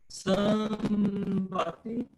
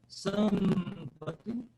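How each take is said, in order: No difference in how they are said.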